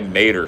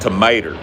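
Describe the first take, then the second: First: The first syllable is dropped, leaving two syllables. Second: All three syllables of the word are said. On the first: "drop the toe and just say mater" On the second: "It should be pronounced tomato"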